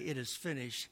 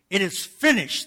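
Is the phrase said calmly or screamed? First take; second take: calmly; screamed. First: The phrase is spoken at a calm, normal volume. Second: The phrase is screamed out at full loudness. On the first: "he didn't just say" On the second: "He screamed it"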